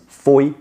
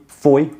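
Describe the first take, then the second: Both takes have the same delivery.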